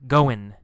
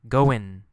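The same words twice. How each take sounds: No difference in how they are said.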